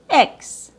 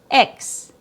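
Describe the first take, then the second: First: It is a short i vowel plus 'ks'. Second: It is a short i vowel plus 'ks'.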